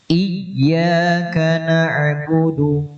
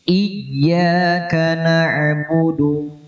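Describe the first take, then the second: Both takes have the same delivery.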